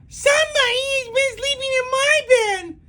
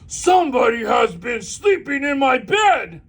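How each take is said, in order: First: Baby Bear's voice is small, shrill and loud. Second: Papa Bear's voice is big and booming.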